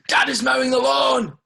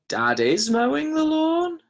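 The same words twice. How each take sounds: First: It is said with loud, excited emphasis. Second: The voice rises at the end like a question. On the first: It announces the fact with surprise. "Exclamation mark" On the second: It asks whether this is happening. "Is that a question?"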